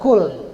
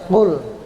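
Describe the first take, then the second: First: The first consonant is a plain k in the mouth. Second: The first consonant comes from deep in the throat. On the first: The speaker calls it wrong. "Jangan kul" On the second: The speaker calls it right. "qafnya suaranya di tenggorokan"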